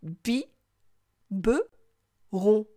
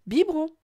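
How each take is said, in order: First: "Bi, be, ron" pulled apart with long pauses; syllable by syllable. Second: Said in the usual way. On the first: Shown as a demonstration. Teacher asks child to listen, syllable by syllable. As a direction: say "Bi", "be", "ron" as three separate beats. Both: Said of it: "Écoute".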